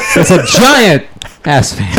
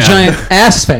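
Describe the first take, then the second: First: The stress is on giant. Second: The stress is on ass.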